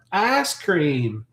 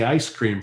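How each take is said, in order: First: Higher, drawn-out Southern "ice cream" as "ass cream"; Southern US accent. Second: Said in the usual way. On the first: Shown as a demonstration. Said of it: "the accent when they say ice cream from the South".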